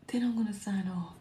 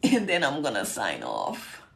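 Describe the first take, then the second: First: Soft, half-whispered aside; hushed repeat. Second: Said in the usual way. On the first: Real, not acted. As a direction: let it drop almost to a whisper. Weary softer repeat after two hours live.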